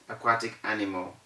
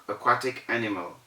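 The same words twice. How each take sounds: Both takes have the same delivery.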